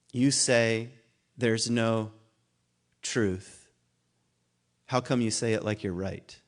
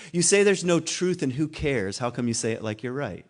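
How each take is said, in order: First: Slow and halting, long pauses between the words as if recalling them; halting recalled lyric. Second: Said in the usual way. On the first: Shown as a demonstration. Lecturer recalling a Bright Eyes lyric for the class, slow and halting. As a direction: feel for the line word by word. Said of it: "I have to think of the line". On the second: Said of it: "he says".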